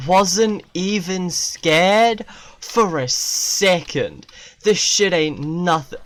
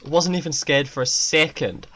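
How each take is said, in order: First: Slow, louder hammed-up boast; an exaggerated fake-brave brag; mock bravado. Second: Said in the usual way. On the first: Shown as a demonstration. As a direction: drag it out, cocky. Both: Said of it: "Easy dubs".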